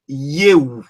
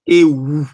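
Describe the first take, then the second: First: The word starts with a 'y' glide. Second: The word starts directly with the vowel. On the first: The speaker calls it right. "mais ça se prononce plutôt YEU" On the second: The speaker calls it wrong. "normalement, on devait dire EU"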